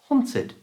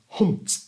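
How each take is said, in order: First: It ends with an added id syllable. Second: It ends with a bare t, no extra syllable. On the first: The speaker calls it right. "this word becomes hunt id" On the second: The speaker calls it wrong. "difficult to say and it's not very clear"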